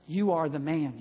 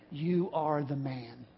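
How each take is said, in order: First: Said in the usual way. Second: Slow, much softer and lower, heavy and grave; solemn accusation. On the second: Retold or imitated. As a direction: drop it slowly and quietly like a final verdict. Prophet's accusing verdict line.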